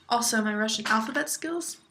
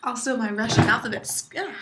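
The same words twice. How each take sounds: First: Said in the usual way. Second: Banging the desk. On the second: Real, not acted. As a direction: voice jolted by a desk bump. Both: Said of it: "Sorry, I hit my desk".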